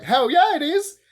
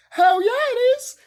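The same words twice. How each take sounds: First: High, loud hell yeah; rising fan cheer; excited cheer. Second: Much higher, loud squealing hell yeah; excited cheer. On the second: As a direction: squeal it, totally overjoyed. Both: Real, not acted. Fan cheering the love story.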